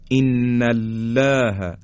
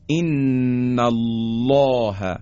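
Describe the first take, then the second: First: ان الله with thin lam, fronted "læ"; slow demo of mistaken light ان الله; wrongly light lam. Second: ان الله with long n and thick dark lam; heavy taghliz. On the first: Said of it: "ترقیق بکنیم به جای تغلیظ". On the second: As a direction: chant ان الله very slowly, الله backed and rounded. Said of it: "حالا این درشتی رو دقت کنید". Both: Shown as a demonstration.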